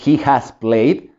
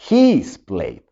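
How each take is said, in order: First: The word has is said in full. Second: The word has is shortened onto he. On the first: "en lugar de decir" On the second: "dirías"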